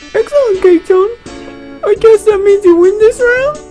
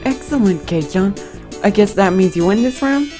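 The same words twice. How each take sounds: First: It is said in a haughty, high voice. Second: It is said in a less haughty voice.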